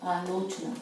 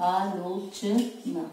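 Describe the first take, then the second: First: Said in the usual way. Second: Slow dictation. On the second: Shown as a demonstration. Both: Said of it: "तो आलोचना".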